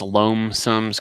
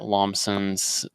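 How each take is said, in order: First: The first syllable sounds like the word loam. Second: The first syllable does not sound like loam. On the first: The speaker calls it right. "I think it's Loamsom's Garage ... kind of playing off the loam" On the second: The speaker calls it wrong. "It's not Lomson's"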